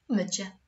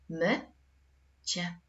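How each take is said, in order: First: Said in the usual way. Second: "Mycie" split as my, long pause, cie; syllable by syllable. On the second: Shown as a demonstration. Teacher dividing a word from the second table, syllable by syllable. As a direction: say "Mycie" in two detached syllables. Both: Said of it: "Jak podzielisz to słowo na sylaby?".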